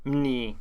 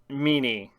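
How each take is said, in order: First: The m and n join with no vowel. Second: A vowel is heard between the m and n. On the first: The speaker calls it right. "It'd be Mni because there's no vowels" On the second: The speaker calls it wrong. "I said that wrong"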